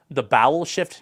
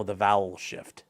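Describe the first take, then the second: First: "bowel" said with an opening b, as a query; misheard "bowel". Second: "vowel" said slowly with an opening v, lower; corrected "vowel". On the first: Streamer repeating chat's mishearing, "bowel" with a b. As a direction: echo the mistaken word "bowel" with a clear b. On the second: Streamer correcting chat's mishearing, "vowel" with a slow, clear v. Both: Shown as a demonstration. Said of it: "No, the vowel shift".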